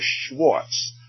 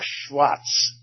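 First: The name is said with an English pronunciation. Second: The name is said with a German pronunciation. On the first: "It's actually Schwartz" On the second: "as the Germans would say"

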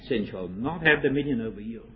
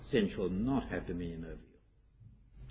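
First: It is said firmly, as an order. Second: It is said reassuringly, as an assurance. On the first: The listener is ordered not to let sin rule. "A command" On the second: The listener is assured sin will not rule. "A promise"

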